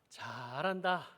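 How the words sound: It sounds like sarcastic, mocking praise. The person is actually doing badly.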